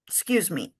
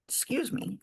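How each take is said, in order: First: Said in the usual way. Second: Hushed excuse me after a hiccup; breathy apology mid-hiccup. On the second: Real, not acted. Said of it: "I got the hiccups".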